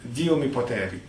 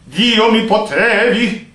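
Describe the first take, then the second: First: It is said in a relaxed everyday speaking voice. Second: It is said with a pushed, strained throat. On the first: "let's say the word naturally" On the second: "forcing your throat"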